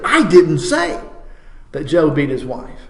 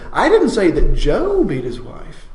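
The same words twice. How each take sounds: First: The word "didn't" carries the main stress. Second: The word "Joe" carries the main stress. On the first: The speaker flatly denies it. "now that's a statement of absolute denial" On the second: It was someone other than that man. "it wasn't Joe at all"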